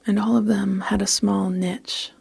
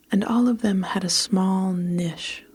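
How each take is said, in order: First: "niche" said NITCH, with a tch ending. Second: "niche" said NISH, short i and sh ending. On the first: Narrator rereading the story line her way, "niche" as NITCH. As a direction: read "niche" to rhyme with pitch. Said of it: "That's how I'm gonna say it". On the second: Narrator reading a story line, "niche" said as NISH. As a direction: read "niche" to rhyme with dish. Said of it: "split the difference and said what no one says". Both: A narrator's reading.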